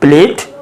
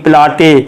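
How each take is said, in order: First: Said as one syllable, final vowel silent. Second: Said as two syllables, final vowel pronounced. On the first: The speaker calls it right. "इसमें यहाँ जोड़ दो तो प्लेट" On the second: The speaker calls it wrong. "नहीं तो आप पढ़ लेंगे प्लाटे ... ऐसे नहीं"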